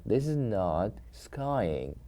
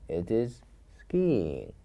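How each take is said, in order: First: "skiing" said wrongly as sky-ing, slow. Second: "skiing" said slowly as skee-ing; the right way: "skiing" with a long ee; correct skiing. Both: Shown as a demonstration.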